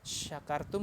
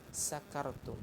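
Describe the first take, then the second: First: The word begins with an 'sh' sound. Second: The word begins with an 's' sound. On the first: You are grateful. The speaker calls it right. "kita baca pakai shin" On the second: You are drunk. The speaker calls it wrong. "pakai sin, bukan sya tapi sa"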